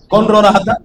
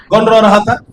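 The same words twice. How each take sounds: First: Said in the usual way. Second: Asking again, shouted. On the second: Shown as a demonstration. Preacher repeats his question to the crowd, now shouting. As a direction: throw the question out at full voice.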